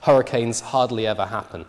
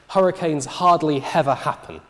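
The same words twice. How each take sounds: First: Each initial H is pronounced normally. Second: Strong H sounds are added, even before vowels. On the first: The speaker calls it right. "pronounce this sentence with the H's in initial position" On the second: The speaker calls it wrong. "she overpronounces the H"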